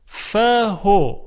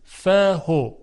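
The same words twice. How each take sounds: First: فهو stretched very slowly and louder; slow recited word. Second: فهو said short, without lengthening the vowel; recited word. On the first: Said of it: "کلمهٔ فهو". (فهو را خیلی کشیده بخوانید) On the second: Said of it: "پس اشباع پذیر نیست". (فهو را کوتاه و بدون اشباع بخوانید) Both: Shown as a demonstration.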